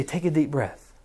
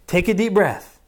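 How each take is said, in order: First: Said in the usual way. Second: Put-on louder, insistent parent calming a screaming child; firm parent over a tantrum. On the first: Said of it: "we say". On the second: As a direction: raise your voice to cut through the yelling. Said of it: "they're just yelling and we're saying".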